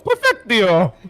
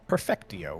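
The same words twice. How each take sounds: First: It is said in an exaggerated Mario voice. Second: It is said in a plain speaking voice.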